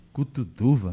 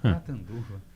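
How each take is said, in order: First: Cutuduva, said with u sounds instead of Catanduva; professor's botched Cutuduva; wrong town name. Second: Catanduva, said clearly and slowly with full a sounds; correct town name. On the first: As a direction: mangle it as Cutuduva, puzzled. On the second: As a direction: correct him firmly: Catanduva. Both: Retold or imitated. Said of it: "Não, Catanduva".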